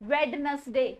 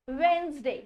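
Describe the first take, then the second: First: A d sound is pronounced in the middle. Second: No d sound is pronounced in the middle. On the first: The speaker calls it wrong. "कुछ नहीं होता है" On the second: The speaker calls it right. "डी is silent in this"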